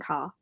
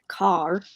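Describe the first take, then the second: First: The final R is left silent. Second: The final R is clearly sounded.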